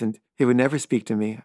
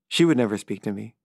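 First: "he" hit firmly at the start; stress on he. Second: "She" stressed with a rise. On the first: The edgy filmmaker shunning him, stress on he. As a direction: land on "he" to single him out. He / she contrast. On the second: The girlfriend shunning him too, stress on she. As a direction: swing the stress onto "She". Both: Real, not acted.

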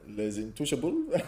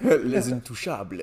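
First: Slow, put-on French accent. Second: Put-on slow, laughing French accent; exaggerated French pronunciation, laughing. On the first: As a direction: say the title like a French speaker. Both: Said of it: "Please say it in the French accent".

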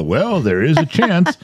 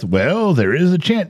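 First: Slow, drawn-out noncommittal doctor; mock doctor dodging the question; vague doctor. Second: Noncommittal doctor drawing it out; vague doctor. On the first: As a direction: hedge it like a cagey doctor. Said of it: "They always go". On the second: Retold or imitated. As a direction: dodge like a cagey doctor. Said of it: "They're so vague".

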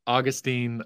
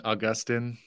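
First: Put-on "Augustine" as AW-gus-teen; AW-gus-teen pronunciation. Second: "Augustine" as uh-GUS-tin; uh-GUS-tin pronunciation. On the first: Guest weighs two pronunciations, saying "Augustine" as AW-gus-teen. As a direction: stress the first syllable of "Augustine", ending in teen. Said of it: "Augustine is in Florida". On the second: Guest weighs two pronunciations, saying "Augustine" as uh-GUS-tin. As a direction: stress the middle of "Augustine", ending in a short tin. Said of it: "Augustine is in heaven". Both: Shown as a demonstration.

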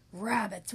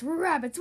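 First: Said in the usual way. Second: Louder howl on rabbits. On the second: Acted. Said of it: "he howled".

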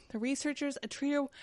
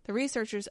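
First: Winded, running out of air; short of breath. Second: Said in the usual way. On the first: Real, not acted. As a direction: read it while gasping for breath. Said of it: "short of breath, I gotta breathe". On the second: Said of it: "I gotta breathe".

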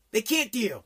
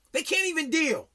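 First: Said in the usual way. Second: High, whiny mock of fragile kids. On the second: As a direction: whine it like a helpless teen. Mocking kids who can't cope.

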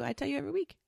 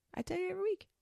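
First: Said in the usual way. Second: Much higher and softer, playful; high sing-song repeat. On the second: Shown as a demonstration. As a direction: repeat it in a teasing little high voice.

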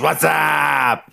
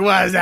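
First: Hammed-up What's Up impression; imitating the What's Up call. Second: Higher What's up with the tongue out; light What's Up impression; imitating the What's Up call. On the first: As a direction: bellow What's up like the old sketch. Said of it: "He still goes". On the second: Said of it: "The tongue on everything".

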